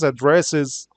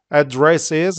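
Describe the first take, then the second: First: 'address is' run together, falling; 'address is' as one joined word; natural linked pronunciation. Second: 'address is' as separate words, pitch lifting at the end; firm, careful 'address is', unlinked; careful spelled-out form. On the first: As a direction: glide 'address' into 'is' and close it. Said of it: "how we say it". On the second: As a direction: say 'address is' word by word, left open. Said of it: "how we spell it". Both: Shown as a demonstration.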